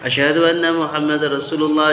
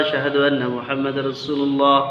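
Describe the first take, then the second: The two takes are said the same way.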